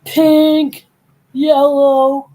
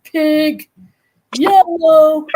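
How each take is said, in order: First: Shouted insults. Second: High yelled insult words; shouted insults. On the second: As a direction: yell pink then yellow. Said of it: "and one went". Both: Retold or imitated.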